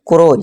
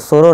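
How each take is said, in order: First: The word begins with a k sound. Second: The word begins with an s sound. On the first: The speaker calls it right. "ये क्या होगा क्रो यानी कि कौआ" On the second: The speaker calls it wrong. "ना कि इसे सुरो सुरो नहीं"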